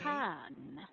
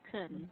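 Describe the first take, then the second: First: The vowel is a full open 'ah'. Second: The vowel is a reduced schwa. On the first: The syllable is stressed. "It is an ah... because it's stressed" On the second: The syllable is unstressed. "If it's not stressed, then it becomes a schwa"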